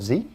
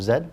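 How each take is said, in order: First: The letter is said as zee. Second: The letter is said as zed.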